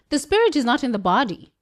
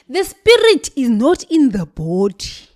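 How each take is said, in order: First: It is spoken in a British accent. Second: It is spoken in a Zulu woman's accent. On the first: "Let me go back to my British accent" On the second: "I need to speak like a Zulu woman"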